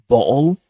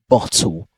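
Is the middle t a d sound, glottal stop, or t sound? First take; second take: glottal stop; t sound. First: The middle t is a glottal stop. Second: The middle t is a clear t sound. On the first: "Cockney accent, where the glottalization happens" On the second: "in British pronunciation, they replace it with a T sound"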